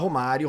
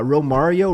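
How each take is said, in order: First: It is said with a Brazilian Portuguese accent. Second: It is said with an American English accent. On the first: It is the natural way for a Brazilian speaker. "porque é natural pra você" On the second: It is how people in the United States say it. "vai para os Estados Unidos narrar um jogo da seleção brasileira e tenta falar"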